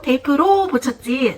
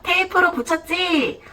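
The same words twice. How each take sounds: First: The particle 'ro' is said with strong emphasis. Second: It is said in an ordinary conversational tone. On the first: "두 번째는 조사를 강조한 문장으로 들려줍니다" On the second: "한 번은 그냥 일상 대화 속에서의 그 어투로 들려주고"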